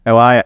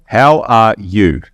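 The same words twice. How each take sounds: First: Quick, run-together "How are ya?"; casual Australian. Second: Very slow "How are you?", each word separate; careful, less Australian. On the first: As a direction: slur "How are ya?" into one easy phrase, ending on a short "ya". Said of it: "It's not, "How are ya?". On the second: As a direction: fully sound out "you" in "How are you?" for foreign listeners. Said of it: "I gotta make sure I'm less Australian". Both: Shown as a demonstration.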